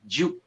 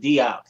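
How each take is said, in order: First: The name starts with a blended 'j' sound. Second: The name starts with a separate 'dee' sound. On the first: This is the French way to say it. The speaker calls it right. "it's actually, it's like, Sheikh- his name is Sheikh Juke. You, you pronounce it like that" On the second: This is how most people say it. The speaker calls it wrong. "they pronounce it Diop"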